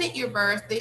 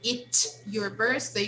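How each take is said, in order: First: The final T of it is barely pronounced. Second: The final T of it is clearly pronounced. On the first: "You kind of omit the final T" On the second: "Instead of saying"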